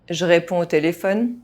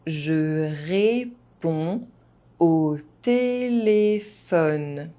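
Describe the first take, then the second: First: It is spoken fast, with some sounds dropped. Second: It is spoken at an ordinary, moderate pace. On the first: "fast, as a native speaker would do" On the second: "at a normal pace"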